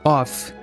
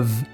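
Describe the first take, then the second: First: The word ends with an f sound. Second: The word ends with a v sound. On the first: The speaker calls it wrong. "essa palavra não tem a pronúncia of" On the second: The speaker calls it right. "mas sim of. Chega a ser um V mesmo"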